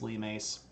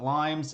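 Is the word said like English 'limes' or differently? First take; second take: differently; English-like. First: It sounds unlike the English word for the fruit. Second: It sounds like the English word for the fruit. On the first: The speaker calls it right. "it's limes" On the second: The speaker calls it wrong. "I know it looks like the word limes, but it's not limes"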